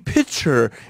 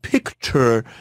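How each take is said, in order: First: The 'k' sound in the middle is dropped. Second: The 'k' sound in the middle is pronounced. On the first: "he just leaves off consonants" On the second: "instead of picture"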